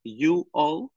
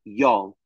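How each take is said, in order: First: Said in the usual way. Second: "y'all" said as one short syllable, jol; y'all contracted. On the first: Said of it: "en vez de decir". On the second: Shown as a demonstration. Explaining Southern speech to chat, "y'all" as one syllable. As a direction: squeeze "y'all" into a single quick syllable. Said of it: "ellos dicen".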